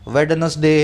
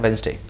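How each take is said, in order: First: The d sound in the middle is pronounced. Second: The d sound in the middle is silent. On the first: The speaker calls it wrong. "वेडनेसडे ऐसे ही बोलते हो ना, मत बोला करो" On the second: The speaker calls it right. "तो ये डी को साइलेंट करके चलना है"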